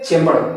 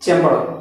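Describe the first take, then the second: No difference in how they are said.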